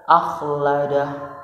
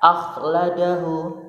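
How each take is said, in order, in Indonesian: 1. Kata ini berakhir dengan konsonan mati. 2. Kata ini berakhir dengan vokal pendek. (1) "diwakafkan harus dibaca sukun" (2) "bertanda dhammah"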